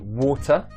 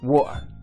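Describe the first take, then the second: First: The middle T sound is clearly pronounced. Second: The middle T is replaced by a glottal stop. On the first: "Sometimes I'll pronounce the T" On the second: "sometimes I won't pronounce the T"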